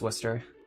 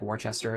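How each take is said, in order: First: It is said the way locals pronounce it. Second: It is said the way outsiders pronounce it. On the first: The speaker is from the area. The speaker calls it right. "it's pronounced Worcester" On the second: The speaker is not from the area. The speaker calls it wrong. "They would say like Worcester or something"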